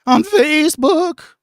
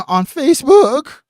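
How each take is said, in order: First: Put-on high squeaky voice-breaking teen; mock a boy whose voice is breaking; pubescent son voice. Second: High, loud voice crack on Facebook. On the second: Real, not acted. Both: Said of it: "Sound like my fucking little pubescent son".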